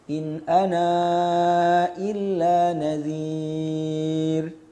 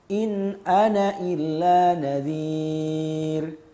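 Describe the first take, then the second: First: The final vowel of 'ana' is kept and lengthened. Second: The final vowel of 'ana' is dropped entirely. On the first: "isbat dengan tawassut" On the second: "tarkul isbat. Maknanya dengan menghapus alifnya ketika wasol"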